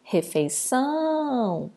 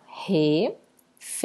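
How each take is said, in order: First: "refeição" with a long drawn-out final "ção"; called out, stretched. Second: "refeição" broken into re, fei, ção; split into syllables. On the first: Teacher calling the word to find the tonic syllable, "refeição" stretched on "ção". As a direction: call "refeição", holding the "ção". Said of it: "Quando eu chamo". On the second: Teacher separating the word, "refeição" syllable by syllable. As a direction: pause after each syllable of "refeição". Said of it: "eu separo". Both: Shown as a demonstration.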